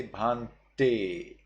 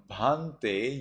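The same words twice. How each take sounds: First: Bhante with a sharp T. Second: Bhante, unsharpened T; blunt T. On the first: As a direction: slowly split bhante, striking the te. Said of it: "you say bhante". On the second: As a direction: say bhante evenly, rising at the end. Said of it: "instead of bhante". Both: Shown as a demonstration.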